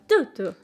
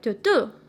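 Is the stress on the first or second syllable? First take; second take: first; second. First: The stress is on the first syllable. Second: The stress is on the second syllable. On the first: "with the stress on the first syllable" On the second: "the stress is on the second syllable"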